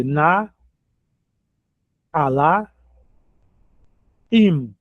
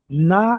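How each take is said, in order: First: Na, Alá, Im said apart with long pauses; teacher syllabifying Naalaim; split into syllables. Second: Said in the usual way. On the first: Shown as a demonstration. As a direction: break Naalaim into three separate beats. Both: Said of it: "Aqui divide".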